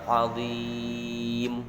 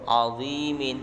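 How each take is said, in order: First: The word ends on a bare consonant. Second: The word ends with a vowel and n. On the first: The reader pauses at this word. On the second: The reader continues without pausing.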